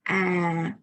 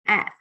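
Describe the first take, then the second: First: The pitch falls and the vowel is long. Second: The pitch falls and the vowel is short. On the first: "we pronounce it down and long" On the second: "this one we pronounce it down but very short"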